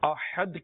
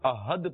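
First: The h is a harsh, throaty sound. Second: The h is a plain, soft sound. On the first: It means one, the unique one. The speaker calls it right. "احد کی جگہ پر" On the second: The meaning changes. The speaker calls it wrong. "کتنا غلط ہو جائے گا احد پڑھنا، معنی بدل گئے"

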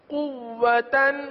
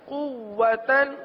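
The two takes are said the same way.

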